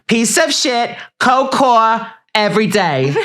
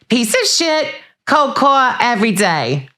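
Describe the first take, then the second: First: It is said in the speaker's normal voice. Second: It is said in an impression of Teresa.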